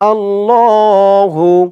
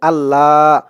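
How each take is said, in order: First: The word ends with a clear final 'hu' syllable. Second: The word ends without a final 'hu' syllable. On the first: The speaker calls it right. "আল্লাহ শব্দের উচ্চারণ হচ্ছে আল্লাহ হু।" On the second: The speaker calls it wrong. "অনেকে বলে আল্লাহ। আল্লাহ বললে আল্লাহ শব্দের উচ্চারণটা সঠিক হয় না।"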